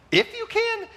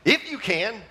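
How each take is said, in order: First: A sudden very high, indignant repeat; mock outrage, pitched way up; incredulous squeal. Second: With attitude. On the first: Jesus echoing the father, high and offended. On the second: Retold or imitated. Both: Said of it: "Jesus kind of responds with an attitude".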